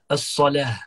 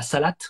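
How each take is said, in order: First: The word ends with an h sound. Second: The word ends with a t sound. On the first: The speaker calls it right. "avec un ta marbuta qui se transforme en ha à la fin" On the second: The speaker calls it wrong. "en arabe cassé la salat"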